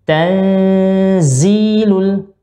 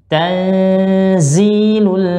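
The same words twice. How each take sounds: Both takes have the same delivery.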